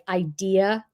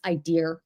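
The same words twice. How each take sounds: First: It is said without an R sound at the end. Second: It is said with an R sound at the end.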